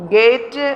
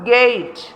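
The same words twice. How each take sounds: First: "ഗേറ്റ്" with an added vowel after t; local-style "ഗേറ്റ്", flat long e; wrong pronunciation. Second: "ഗേറ്റ്" as geyt; correct pronunciation. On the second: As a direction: glide in "ഗേറ്റ്", stop cleanly on t. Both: Shown as a demonstration. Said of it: "ഗേറ്റ് എന്നല്ല".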